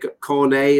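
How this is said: It is pronounced the French way. It refers to the footballer's name.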